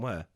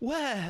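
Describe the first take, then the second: First: It is said in a plain, blunt, simple way. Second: It is said in a soft, affectionate, elaborated way. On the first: It is just a plain question. "My dad simply, ... he would have gone, where?" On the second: It is said fondly, as if to a loved one. "my mum like dresses it up, like, oh, where? Like as if saying, my love"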